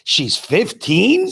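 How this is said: It is said as a question, rising.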